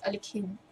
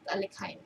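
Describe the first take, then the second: First: The name is said with a Russian pronunciation. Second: The name is said with an English pronunciation. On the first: The speaker calls it right. "Pag pumunta ka sa Russia, ang tawag nila dyan is Alekhine" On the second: The speaker calls it wrong. "Not Alekhine"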